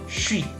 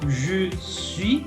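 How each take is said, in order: First: The words blend into one 'chuis' syllable. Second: Both words are said fully and separately. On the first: This is how people say it when talking fast. "cuando la gente habla rápido, que lo une" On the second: This is the usual form. "normalmente decimos je suis"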